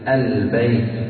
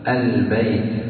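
No difference in how they are said.

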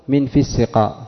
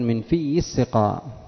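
First: The y sound in 'fi' is short. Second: The y sound in 'fi' is doubled. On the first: The speaker calls it right. "لم أسمع من الوعاظ فيما أذكر من يقول من في السقاء" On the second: The speaker calls it wrong. "يقولون من في السقاء، في شدة لا معنى لها"

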